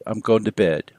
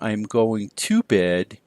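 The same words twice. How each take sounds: First: The word to is reduced to a schwa. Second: The word to is said with a full vowel. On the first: "drop that to sound and make a schwa sound" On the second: "instead of saying"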